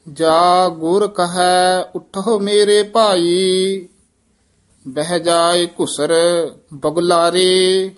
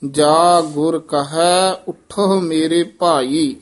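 First: Measured, even-toned Gurbani reading; scripture recitation. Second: Slow phrasing, stopping after "ਭਾਈ"; pause placement. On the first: Acted. Reciter reads Gurbani verses for learners, measured recitation. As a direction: recite on a level, sustained tone. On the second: Shown as a demonstration. Teacher shows learners the resting point, slow, pause after "ਭਾਈ". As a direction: take it slowly and rest on "ਭਾਈ". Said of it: "ਇੱਥੇ ਵਿਸਰਾਮ ਹੈ".

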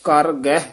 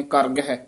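First: ਕਰ ਗਹਿ as two separate words; a small gap between ਕਰ and ਗਹਿ; separated words. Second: ਕਰ ਗਹਿ joined as if one word; no gap between ਕਰ and ਗਹਿ; run together. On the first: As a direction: say ਕਰ, then ਗਹਿ, each distinct. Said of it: "ਇਹ ਵੱਖਰਾ ਹੀ ਕਰਨਾ". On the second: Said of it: "ਆਮ ਇਕੱਠੇ ਹੀ ਕਹਿ ਜਾਂਦੇ ਨੇ". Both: Shown as a demonstration.

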